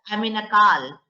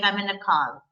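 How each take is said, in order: First: It is said in a UP-Bihar accent. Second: It is said in an American accent.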